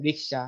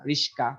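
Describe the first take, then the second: First: Said in the usual way. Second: রিস্কা with the s before the k; swapped consonants. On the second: Shown as a demonstration. Teacher showing how letters swap places in Bangla, রিস্কা with s and k swapped. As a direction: flip "riksha" into "riska". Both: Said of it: "আগের letter পরে চলে আসে".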